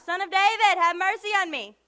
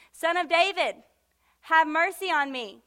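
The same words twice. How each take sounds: First: Higher, louder acted yell. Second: Loud imitated plea; crying out. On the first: Blind man who would not stop, yelling out to Jesus. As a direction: holler the plea over everyone, pitched up. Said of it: "He was yelling out". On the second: Blind Bartimaeus calling to Jesus, crying out. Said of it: "he cried out".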